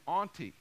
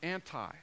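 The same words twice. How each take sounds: First: The word is pronounced the Greek way. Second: The word is pronounced the English way. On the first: "You would pronounce it in Greek" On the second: "But we use the word anti"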